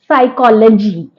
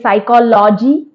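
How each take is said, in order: First: The start has no p sound. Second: A p sound is heard at the start. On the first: The speaker calls it right. "it's psychology" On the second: The speaker calls it wrong. "We may say psychology. No"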